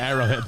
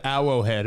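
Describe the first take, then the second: First: Said in the usual way. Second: Arrowhead with the r's softened to w's; mispronounced Arrowhead. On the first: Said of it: "instead of Arrowhead". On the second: Shown as a demonstration. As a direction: say Arrowhead as "Awwowhead". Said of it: "I think I said Arrowhead instead of".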